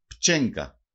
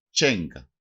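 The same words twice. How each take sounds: First: Said in the usual way. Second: Τσένκα without the initial p, CHEN-ka; "τσένκα", opening on a single ch sound; dialect variant pronunciation. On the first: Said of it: "Προφέρεται και ως τσένκα". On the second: Shown as a demonstration. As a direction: start τσένκα straight on "ch". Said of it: "Προφέρεται και ως".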